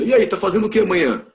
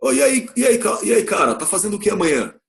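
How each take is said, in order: First: Breezy, higher slangy question; laid-back buddy asking plans; casual slang. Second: Hey-dude slangy question; casual slang. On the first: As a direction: toss it off like a friend. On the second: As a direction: call out to a pal, relaxed. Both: Shown as a demonstration. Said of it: "numa gíria".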